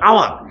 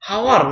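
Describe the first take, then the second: First: The word starts with a vowel, no h. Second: The word starts with an audible h sound. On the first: The speaker calls it right. "এটার উচ্চারণ হবে আওয়ার" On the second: The speaker calls it wrong. "এটা কি হাওয়ার নাকি আওয়ার"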